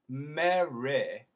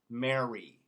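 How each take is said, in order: First: The final y sounds like ih, British style. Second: The final y sounds like ee, American style. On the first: "What they do in England is they make it an I" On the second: "In America, we tend to make that Y an E"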